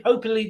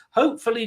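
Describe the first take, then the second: First: "hopefully" stumbled over, its f lost; slurred slip. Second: Said in the usual way. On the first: Real, not acted. Streamer announcing a watch along, stumbling on "hopefully" as "hope-ply". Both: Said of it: "doing a what? Hopefully".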